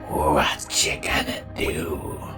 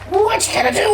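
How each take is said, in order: First: It is whispered very quietly. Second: It is screamed very loudly.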